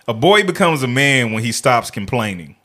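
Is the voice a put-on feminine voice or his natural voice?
natural. It is read in his ordinary natural voice.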